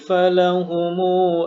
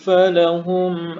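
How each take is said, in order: First: The m is followed by a short u vowel. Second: The word ends on a closed m sound. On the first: "ini nanti akan kita baca silah tapi satu alif" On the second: "falahum dibaca sukun"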